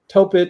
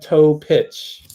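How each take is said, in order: First: The name ends with a k sound. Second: The name ends with a ch sound. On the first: The speaker calls it wrong. "I was calling him Topic" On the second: The speaker calls it right. "It's a toe pitch"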